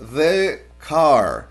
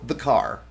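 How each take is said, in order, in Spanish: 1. Una pausa corta separa las dos palabras. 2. Las dos palabras se juntan sin pausa. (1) "yo no voy a decir" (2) "siempre los pegamos al sustantivo como si fueran los dos una sola palabra"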